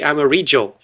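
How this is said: It is said in an Argentine Spanish accent. "in Argentina they say amarillo"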